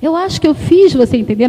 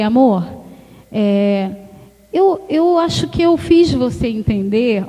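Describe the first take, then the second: First: Fiz gently weighted; "fiz" carries the apology; stress on fiz. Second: Tender apology to the husband; gentle tone. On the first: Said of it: "como é que a gente muda a situação". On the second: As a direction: soothe an upset husband. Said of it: "Aí você muda o tom de voz". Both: Shown as a demonstration.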